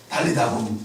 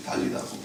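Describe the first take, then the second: First: Said in the usual way. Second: Whispered. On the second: Shown as a demonstration. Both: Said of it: "이 원래 말을 기록해요".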